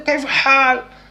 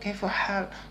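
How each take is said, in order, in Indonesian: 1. Diucapkan dengan suara yang meninggi dan lebih tinggi. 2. Diucapkan dengan tenang pada nada normal. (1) "agak tinggi suaranya"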